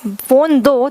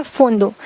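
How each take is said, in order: First: Dad insisting on phone; emphatic. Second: Said in the usual way. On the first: Shown as a demonstration. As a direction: demand phone firmly. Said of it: "जब वो जोर दे के कहेंगे". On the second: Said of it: "उन्होंने बोला".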